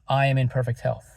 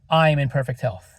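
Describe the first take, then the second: Both takes have the same delivery.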